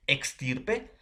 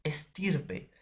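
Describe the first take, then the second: First: "Extirpe" con la equis sonando "ks"; pronunciación con equis. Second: "estirpe" con ese simple, sin k; pronunciación con ese. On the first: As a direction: marca la k antes de la s en "Extirpe". ("Extirpe" pronunciado con equis clara, "eks-") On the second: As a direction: di "estirpe" más suave, empezando por "es-". ("estirpe" pronunciado con una ese limpia) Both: Shown as a demonstration. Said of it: "la pronunciación, ¿va a ser ligero, eh, diferencia?".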